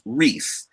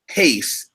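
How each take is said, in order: First: The name begins with an R sound. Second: The name begins with an H sound. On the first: This is how the name's owner says it. The speaker calls it right. "it's Reese" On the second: This follows the Brazilian way of saying R. The speaker calls it wrong. "I apologize for mispronouncing your name"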